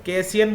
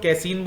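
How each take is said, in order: First: "कैसियन" said as kay-si-yan, three syllables; "कैसियन" with a short i gliding into -yan; variant pronunciation. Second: "कैसीन" said as kay-seen, two syllables; "कैसीन" ending in -seen, no -yan; correct pronunciation. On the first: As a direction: say "कैसियन" with an -ian ending. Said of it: "मैं गलत बोलता हूँ कैसियन". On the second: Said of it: "it's कैसीन". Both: Shown as a demonstration.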